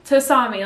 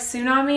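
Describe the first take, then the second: First: The first T is clearly sounded. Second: The first T sound is barely heard.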